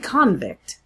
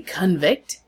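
First: The first vowel sounds like 'con'. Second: The first vowel sounds like 'cun'. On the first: The speaker calls it right. "You say convict" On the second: The speaker calls it wrong. "You don't say convict"

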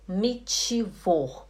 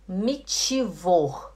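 No difference in how they are said.

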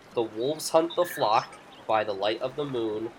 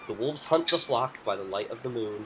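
First: It is said at a slower pace. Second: It is said at a quicker pace.

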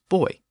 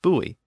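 First: It is said with the British pronunciation. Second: It is said with the common American pronunciation. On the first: "In Britain, the pronunciation is buoy" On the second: "which I pronounced buoy, and that is the most common pronunciation of the word in the United States"

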